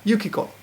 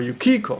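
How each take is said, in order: First: The name is said with flat, even pitch. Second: The name is said with one syllable accented. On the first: The speaker calls it right. "so it's flat" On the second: The speaker calls it wrong. "many foreigners say Tomoko or Yukiko"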